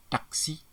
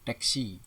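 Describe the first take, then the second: First: Higher "Taksi" with A; standard pronunciation. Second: "taksi" with E, "teksi"; nonstandard pronunciation. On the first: Teacher models standard word, high "Taksi". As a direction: clear tak-si for "Taksi". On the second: Teacher shows wrong form, "taksi" as teksi. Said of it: "Bukan taksi". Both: Shown as a demonstration.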